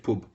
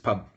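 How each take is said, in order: First: It is said in a northern English accent. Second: It is said in a London English accent. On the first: "Up there, it's pub" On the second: "Down London, it's pub"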